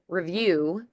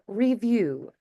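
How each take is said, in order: First: The vowels are said quickly and reduced. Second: The vowels are said fully and clearly. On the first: "quick through those vowels" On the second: "instead of review"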